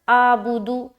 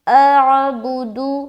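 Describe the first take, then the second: First: The throaty ain sound is left out entirely. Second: The throaty ain sound is clearly pronounced. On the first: The speaker calls it wrong. "आइन आपका टोटली खत्म हो गया है" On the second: The speaker calls it right. "कैसे क्लियर साफ वाज़े तौर पर हुई ना द आइन"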